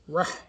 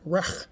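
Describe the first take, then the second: First: The h is a tense, throaty h sound. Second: The h is a light, plain English h. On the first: The speaker calls it right. "It's Rah" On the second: The speaker calls it wrong. "Not Rah, like we hear people say"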